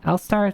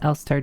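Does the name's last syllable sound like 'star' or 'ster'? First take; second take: star; ster. First: The last syllable sounds like 'star'. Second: The last syllable sounds like 'ster'. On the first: The speaker calls it wrong. "I'm just gonna call it L-star" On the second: The speaker calls it right. "It's pronounced Elster, German for magpie"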